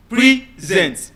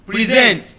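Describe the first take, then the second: First: Slow PRE-sent, the noun; stress on first syllable. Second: Pre-SENT, to give; stress on second syllable. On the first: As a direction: PRESENT as the gift, slow with weight on PRE. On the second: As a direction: PRESENT as the verb, weight on SENT. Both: Shown as a demonstration. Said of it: "the stress changes the meaning".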